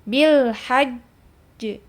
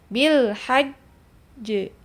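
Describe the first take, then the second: Both takes have the same delivery.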